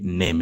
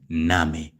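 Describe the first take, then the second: First: It is pronounced like the English word. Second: It is pronounced like the German word. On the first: The speaker calls it wrong. "don't say name" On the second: The speaker calls it right. "but in German is Name"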